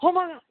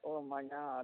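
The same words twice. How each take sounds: First: It is said with an excited gasp. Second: It is said flatly, without excitement.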